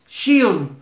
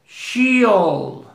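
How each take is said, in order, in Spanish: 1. La L final es clara y delgada. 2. La L final es oscura y hueca. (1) "Entonces terminan diciendo ... Y se oye mal" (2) "el segundo sonido de la L ... como cuando tienes agua en la boca"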